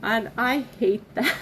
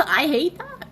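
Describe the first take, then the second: First: Said in the usual way. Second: Higher and louder, laughing it out; embarrassed laugh while saying it; laughing through tears. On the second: Real, not acted. Speaker laughs at herself for crying on camera, laughing. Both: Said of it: "I hate being an emotional person".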